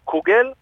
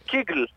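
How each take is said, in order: First: The first vowel is an 'oo' sound. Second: The first vowel is an 'ee' sound. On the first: "זה קוגל" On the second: "ואצלנו בבית קראו לזה קיגל, עם שוון נח מוזר"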